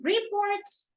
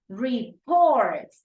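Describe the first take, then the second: First: The stress is on the first syllable. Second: The stress is on the second syllable. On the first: The speaker calls it wrong. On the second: The speaker calls it right. "the second syllable"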